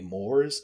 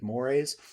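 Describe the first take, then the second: First: It is said as the English spelling suggests. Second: It is said in a French-style way. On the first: The speaker calls it wrong. "It looks like it should be mores" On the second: The speaker calls it right. "it's actually French, so the pronunciation is mores"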